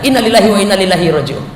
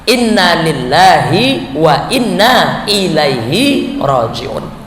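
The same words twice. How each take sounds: First: The phrase is said quickly and hurriedly. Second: The phrase is said at a calm, measured pace. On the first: The speaker calls it wrong. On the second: The speaker calls it right.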